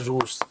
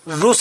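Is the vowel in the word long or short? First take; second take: long; short. First: The vowel u is said long. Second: The vowel u is said short. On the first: The speaker calls it right. "रूस होता है" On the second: The speaker calls it wrong. "रूस नहीं होता है"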